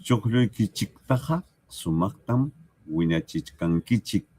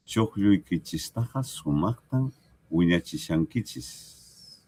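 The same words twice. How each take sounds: First: Chuqlluykichiktaqa with the -chik ending, wiñachichkankichik with chk; teacher contrasts the central version with the southern one; central pronunciation. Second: Chuqlluykichistaqa with the -chis ending, slow and even; teacher reads the southern version to the class, slowly; southern pronunciation. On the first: Pronunciación central. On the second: Pronunciación del sur. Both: Shown as a demonstration. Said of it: "Diríamos más al sur".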